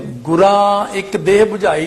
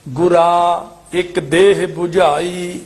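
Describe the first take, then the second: First: ਗੁਰਾ with a nasalised final aa, as ਗੁਰਾਂ; mistaken nasal ending. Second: ਗੁਰਾ with a clear oral aa, slow; no nasal ending. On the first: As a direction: add a nasal to the end of ਗੁਰਾ. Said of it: "ਨਹੀਂ ਬੋਲਣਾ". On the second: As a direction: keep the end of ਗੁਰਾ free of nasal. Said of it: "ਬਿੰਦੀ ਨਹੀਂ ਲਾਉਣੀ ਕੰਨੇ ਨੂੰ". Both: Shown as a demonstration.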